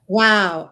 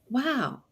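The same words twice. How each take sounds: First: Wow is said in a sarcastic tone. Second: Wow is said in a curious, interested tone. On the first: The speaker disapproves of what they see. "there's that sarcastic wow" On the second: The speaker wants to hear more. "that one says interesting"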